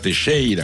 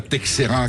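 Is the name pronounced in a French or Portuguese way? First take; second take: Portuguese; French. First: The name is pronounced with Portuguese sounds. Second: The name is pronounced with French sounds.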